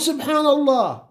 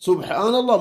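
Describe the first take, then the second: First: The first syllable is said with an 'i' vowel. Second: The first syllable is said with a 'u' vowel. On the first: The speaker calls it wrong. "البعض يكسر سين سبحان الله يقول غلط" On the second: The speaker calls it right. "السين هنا مضمومة"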